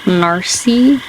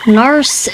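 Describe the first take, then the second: First: "Narcy" said NAR-see, ending in an ee sound; wrong pronunciation. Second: "Narce" said as one syllable, NARSS; corrected pronunciation. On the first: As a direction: say "Narcy" with a long ee at the end. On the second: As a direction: say "Narce" short, rhyming with farce. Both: Shown as a demonstration. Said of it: "Probably said that wrong".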